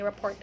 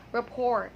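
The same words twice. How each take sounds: First: "report" with the T sounded; wrong T pronunciation. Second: "rapport" as ra-POR, no T; correct silent T. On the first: Teacher showing what we don't say, T pronunciation. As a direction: close "report" on a T. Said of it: "We don't say report". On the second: Teacher showing what we say, silent T. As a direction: leave "rapport" open at the end. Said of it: "we say rapport". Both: Shown as a demonstration.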